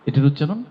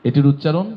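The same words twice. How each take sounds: Both takes have the same delivery.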